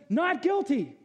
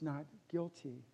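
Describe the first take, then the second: First: High, firm pronouncement of the verdict; God's verdict. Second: Much softer, slower Not guilty; hushed verdict. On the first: Retold or imitated. God acquitting the sinner, firm verdict. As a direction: declare Not guilty like a judge. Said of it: "And he says". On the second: Real, not acted. Preacher telling hearers the verdict, hushed. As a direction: say Not guilty softly, almost reverent. Sermon quiet climax.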